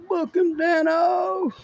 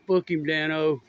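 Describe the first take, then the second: First: High, slow, drawn-out TV catchphrase; hammed-up catchphrase. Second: Said in the usual way. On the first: Real, not acted. Watching police catch a runner, cheering: high hammed-up catchphrase. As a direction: cheer the cop like a TV fan.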